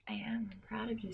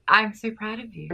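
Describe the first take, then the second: First: Soft breathy whisper of mock pride. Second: Said in the usual way. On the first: Whispering mock pride to the co-host. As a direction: lean in and whisper it like a secret.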